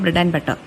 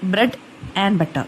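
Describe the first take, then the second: First: The phrase is said fast with 'and' reduced. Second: The word 'and' is said fully and separately. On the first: The speaker calls it right. "നമ്മൾ സ്പീഡിൽ പറഞ്ഞു പോകുമ്പോൾ" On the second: The speaker calls it wrong. "എന്ന് നമ്മൾ ഒരിക്കലും പറയത്തില്ല"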